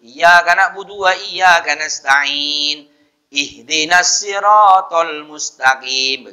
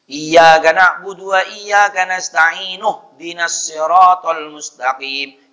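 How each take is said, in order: First: There is a pause after the first verse. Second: The verses run together with no pause. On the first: The reader stops at the end of the verse. "Kalau berhenti" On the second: The two verses are joined as one reading. "Itu kalau disambung. Tidak mutus"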